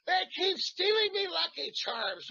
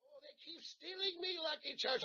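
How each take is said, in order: First: High, slow, shouted Irish leprechaun voice; Irish accent. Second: High, softer Irish leprechaun lilt; a second lighter Irish accent take. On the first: Actor pitching an Irish accent for the priest, shouted leprechaun Irish. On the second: Actor retrying the Irish priest accent, softer Irish lilt. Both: Shown as a demonstration. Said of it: "Irish accent".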